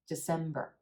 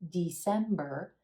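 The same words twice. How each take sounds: First: The first syllable is a very quick schwa. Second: The first syllable has a full, longer vowel. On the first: The speaker calls it right. "The first syllable is a schwa, super quick" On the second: The speaker calls it wrong. "instead of December"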